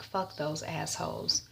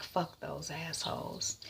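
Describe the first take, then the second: First: Said in the usual way. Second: Slow, much softer repeat of "Fuck those assholes."; dazed, hushed "Fuck those assholes."; quiet echo. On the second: Acted. Laura echoes the cabbie.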